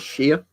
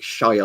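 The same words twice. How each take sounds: First: It sounds like 'sheer', with a reduced vowel. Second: It rhymes with 'fire', with a full vowel. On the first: "we just normally say it as Shire ... like you're shearing a sheep" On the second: "whenever you hear Americans ... they always do it like Shire like that"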